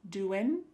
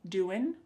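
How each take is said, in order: No difference in how they are said.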